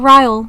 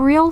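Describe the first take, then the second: First: The name's vowel sounds like 'eye'. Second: The name's vowel sounds like 'ee'. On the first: "people people say his name differently" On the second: "I always pronounce it Real because I just think that rolls off the tongue better"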